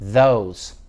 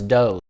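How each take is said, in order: First: It starts with a soft th sound. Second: It starts with a hard d sound. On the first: The speaker calls it right. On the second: The speaker calls it wrong.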